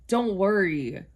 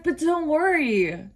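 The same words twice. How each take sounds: First: Said in the usual way. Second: High, slow mock comfort; a staffer's hammed-up sweet reassurance; sing-song soothing. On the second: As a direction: coo "But don't worry" up high and slowly, like calming a child.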